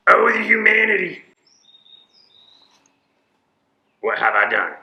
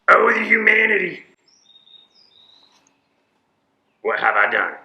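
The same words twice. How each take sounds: First: It is said with strong, dramatic emotion. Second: The same.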